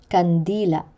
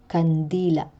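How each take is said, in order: The two takes are said the same way.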